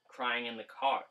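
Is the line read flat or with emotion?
flat. It is read flatly, without emotion.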